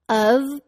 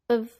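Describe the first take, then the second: First: The word is pronounced with a full vowel. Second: The word has a schwa and keeps the v.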